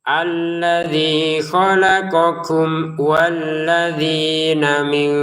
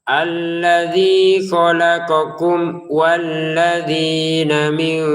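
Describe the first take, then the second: The two takes are said the same way.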